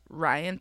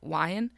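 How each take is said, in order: First: The name begins with a clear R sound. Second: The name begins with a W sound. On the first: "it was Ryan" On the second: "but he said it Wyan"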